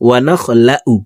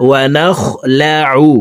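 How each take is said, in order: First: Wrong ain in ونخلع; wrong pronunciation. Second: ونخلع with ain from the middle of the throat; correct pronunciation. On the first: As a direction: demo the common mistake wanakhlau. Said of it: "আমরা অনেকে এই শব্দটিকে এভাবে পড়ে থাকি". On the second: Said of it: "এভাবে পড়লে সঠিক উচ্চারণটি হবে না।". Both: Shown as a demonstration.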